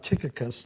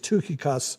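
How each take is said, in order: First: The name is said the English way. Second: The name is said the Greek way. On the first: "it comes out Tychicus to us" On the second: "In the Greek, it actually is Tukikos"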